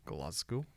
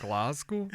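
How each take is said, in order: First: Glasgow said in a low, quiet, mock Scottish accent; a bad Scottish attempt at Glasgow; terrible Scottish accent. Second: Glasgow? in a mock Scottish accent, asked with a rise; a second clumsy Scottish take on Glasgow?; even worse Scottish accent. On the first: Joking to a co-host about the tour city, attempting a Scottish accent on Glasgow. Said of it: "That was a terrible Scottish accent". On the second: Trying the Scottish accent again for the co-host, worse still. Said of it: "That's even worse".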